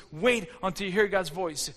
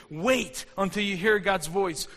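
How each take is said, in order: First: Said in the usual way. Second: Slow, leaning hard on "hear"; slow, stressed "hear". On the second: Shown as a demonstration. Preacher to the congregation, leaning slowly on "hear". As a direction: drive home "hear" slowly. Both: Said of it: "point number two".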